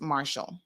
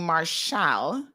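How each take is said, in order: First: The S sound is plain and light. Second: The S sound is strongly emphasized. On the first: The speaker calls it right. "it's just Marshall, like the deputy and the marshal" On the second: The speaker calls it wrong. "putting a, a sort of heavy emphasis on the S"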